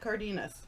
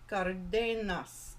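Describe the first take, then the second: First: The name is said with an American English accent. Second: The name is said with a Spanish accent.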